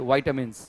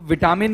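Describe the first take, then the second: First: The first syllable has a long 'ai' vowel. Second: The first syllable has a short 'i' vowel. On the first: The speaker calls it right. "मेरे को क्या बोलना पड़ेगा तरीके से?" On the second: The speaker calls it wrong. "तो विटामिन नहीं होता उसका उच्चारण"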